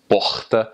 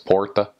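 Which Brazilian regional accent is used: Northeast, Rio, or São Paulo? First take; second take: Rio; São Paulo. First: It is said in a Rio de Janeiro accent. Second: It is said in a São Paulo accent. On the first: "If you go to Rio, it's porta" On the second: "if you go to São Paulo, it's porta"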